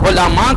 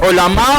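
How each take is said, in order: Both takes have the same delivery.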